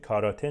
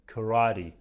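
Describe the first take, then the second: First: It is pronounced with Persian sounds, as spelled. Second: It is pronounced with American English sounds. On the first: The speaker calls it wrong. "کاراته نیست" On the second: The speaker calls it right. "اما تلفظ صحیحش karate"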